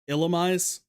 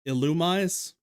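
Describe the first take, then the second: The two takes are said the same way.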